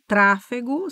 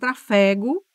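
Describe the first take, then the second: First: The stress is on the third-to-last syllable. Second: The stress is on the second-to-last syllable. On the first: "toda proparoxítona" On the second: "se eu tirar o acento, vira trafego"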